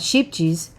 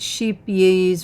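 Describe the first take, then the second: First: The second part begins with a 'j' sound. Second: The second part begins with a 'y' sound. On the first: "I always call it" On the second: "it's sheep yays or something"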